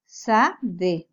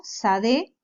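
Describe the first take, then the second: First: Sade said again, lower and settled; Hebrew word repeated. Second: Sade, with a light rise; Hebrew word. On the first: Teacher repeating sade for students. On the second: Teacher modelling the word for field. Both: Shown as a demonstration. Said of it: "que significa campo".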